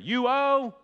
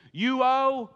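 First: "owe" high and loud, falling; "owe" punched like a preacher; stress on owe again. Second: "owe" hit high and loud; "owe" landed loud and falling; stress on owe. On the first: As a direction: lean hard on "owe". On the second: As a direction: punch the word "owe" hard. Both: Shown as a demonstration. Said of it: "let's try it again".

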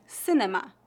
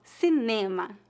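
First: "cinema" in English, stressed on first syllable; English pronunciation. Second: "Cinema" with stress on NE; Portuguese pronunciation. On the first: Teacher asking for the Portuguese of an English word, English pronunciation. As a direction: say "cinema" as SIN-uh-muh. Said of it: "Como se pronuncia a palavra". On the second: Teacher answering how it is said in Portuguese, Portuguese pronunciation. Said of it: "a principal diferença seria a sílaba tônica". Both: Shown as a demonstration.

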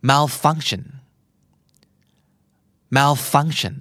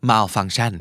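First: Malfunction with FUNC stressed and tion as a light shun; English stress. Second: Malfunction with every syllable equally stressed; Thai style, even syllables. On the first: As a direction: hit FUNC, reduce the ending. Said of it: "ภาษาอังกฤษ". (เน้น FUNC ส่วน tion เบาๆ) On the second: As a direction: say each syllable evenly, Thai way. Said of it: "ภาษาไทย". (ทุกพยางค์เท่ากันแบบไทย) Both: Shown as a demonstration.

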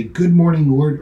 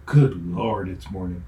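First: Bright, eager and louder morning greeting to God; cheerful greeting. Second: Groaning dread. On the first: Preacher's happy start to the day, bright and eager. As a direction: welcome the day gladly. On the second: Preacher's grumpy start to the day, a weary groan. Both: Shown as a demonstration. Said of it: "Same words, different meaning".

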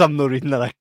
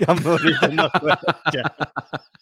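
First: Said in the usual way. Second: Very slow, drawn out through laughter; laughing. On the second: Real, not acted. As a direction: repeat it, cracking up as you stretch it. Refuses to read awkward name.

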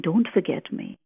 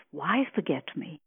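First: The wrong way to say it, a request; demanding plea. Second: Tender question. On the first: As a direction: press "Don't" like an order. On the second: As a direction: lean gently on "Why". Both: Shown as a demonstration. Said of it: "You see the difference".

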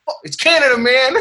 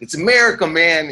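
First: Very high, hammed-up flag-waver; mock patriotic boast. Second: High, pushy American boast; mock patriotic yell. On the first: Comic parodies a Canadian bragging like Americans, high mock boast. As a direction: whoop it like an over-proud patriot. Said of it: "it's just a tone". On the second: Comic imitates American at the border, high mock yell. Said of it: "don't have to yell at me".

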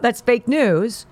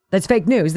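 First: Slow, with "fake" leaned on hard; stress on fake. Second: Said in the usual way. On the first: Shown as a demonstration. Host dismissing the hospital story, slow with stress on "fake". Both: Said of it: "repeated for emphasis".

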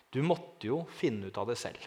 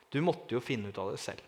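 First: Softer, gentle words from the man; quiet, earnest quote. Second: Soft repeated quote. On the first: The man in the sacristy speaking to him, quiet and earnest. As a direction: say it softly, as a quiet revelation. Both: Retold or imitated. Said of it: "Han sa følgende setning".

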